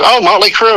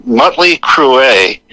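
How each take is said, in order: First: High-pitched recognition, "Crüe" as one syllable, "croo"; correctly pronounced band name. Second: "Mötley Crüe" read haltingly, "Crüe" in two syllables, "croo-AY"; mispronounced band name. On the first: Music-savvy friend recognises it, "Mötley Crüe" as "MOT-lee CROO". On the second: Agent reads unknown name off page, "Mötley Crüe" as "MUT-lee croo-AY". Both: Retold or imitated.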